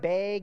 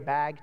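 First: It is said with a Wisconsin accent vowel. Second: It is said with a general accent vowel. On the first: The speaker calls it wrong. "I'm originally from Wisconsin, and I used to say things like bag" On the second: The speaker calls it right. "so now I say bag"

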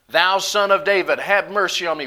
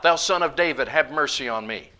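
First: It is cried out more loudly. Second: It is said at a normal, quieter volume.

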